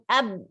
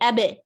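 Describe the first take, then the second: First: The final consonant stops abruptly with no echo. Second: The final consonant is released with a bouncing echo. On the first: The speaker calls it wrong. "Instead of saying" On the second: The speaker calls it right. "they're very clear and they're bouncing kind of sound"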